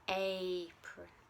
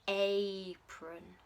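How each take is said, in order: Both takes have the same delivery.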